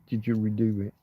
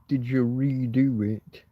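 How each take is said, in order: First: The 're' syllable is short and quick. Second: The 're' syllable is drawn out long. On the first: The speaker calls it right. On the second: The speaker calls it wrong.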